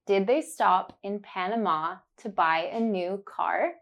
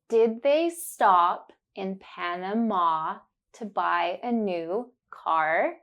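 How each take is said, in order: First: Said in the usual way. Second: Slow, deliberate, every ah clear; slow and careful. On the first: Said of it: "you will hear it naturally". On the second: Shown as a demonstration. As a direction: spell it out slowly for the learner. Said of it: "say it slowly and focus on the sound".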